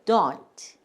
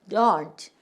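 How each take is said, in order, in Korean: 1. 마지막 t 소리는 분명하게 발음됩니다. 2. 마지막 t 소리는 분명하게 발음됩니다.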